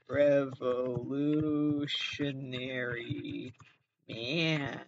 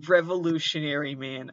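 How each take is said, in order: First: REVOLUTIONARY MAN stretched very slowly; drawn-out title. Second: Said in the usual way. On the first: Acted. Podcaster tries out a title, Revolutionary Man drawn out slowly. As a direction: linger on every syllable of Revolutionary, pause, then Man.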